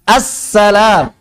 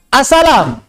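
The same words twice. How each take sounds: First: The l sound is held before release. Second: The l sound is short, not held. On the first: The speaker calls it right. "Tapi assalam" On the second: The speaker calls it wrong. "Bukan assalam"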